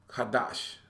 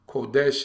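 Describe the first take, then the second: First: Every vowel in the word is an 'ah' sound. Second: The vowels are not all 'ah' sounds. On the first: "every vowel sound is the ah sound" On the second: "how we say it"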